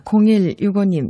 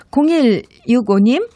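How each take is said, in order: First: Name called with a falling Gyeongsang lilt on 공일육오님; Gyeongsang dialect. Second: Said in the usual way. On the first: Acted. Radio DJ greets a listener in Gyeongsang accent. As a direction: say 공일육오님 in a Gyeongsang accent, pitch dropping at the end. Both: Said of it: "이거 경상도 사투리 버전으로 해보".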